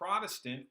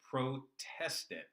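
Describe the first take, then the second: First: The word is said at normal speed. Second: The word is said slowly with shifted emphasis.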